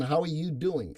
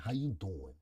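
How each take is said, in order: First: Said in the usual way. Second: Put-on low, soft Italian Brooklyn accent; playful Italian Brooklyn accent, voice dropped low. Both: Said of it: "Say it in your Italian Brooklyn accent".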